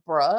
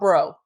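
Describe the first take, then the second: First: The word ends in a short 'uh' vowel. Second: The word ends in a long 'oh' vowel. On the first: It is a casual interjection, like 'guess what'. The speaker calls it right. "we'll say bruh, like that, like bruh" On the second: It addresses the listener as a person. The speaker calls it wrong. "he goes bro"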